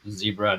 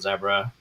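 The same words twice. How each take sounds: First: It is said with an American pronunciation. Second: It is said with a non-American pronunciation. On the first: It is the form adopted so Americans understand. The speaker calls it right. "I've had to adjust my my uh, Z sounding words to zebra" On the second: It is the speaker's original form. The speaker calls it wrong. "not zebra"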